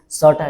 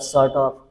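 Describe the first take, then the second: First: The words are contracted and blended together. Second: Every word is said fully and separately. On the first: "use sorta" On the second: "instead of sort of"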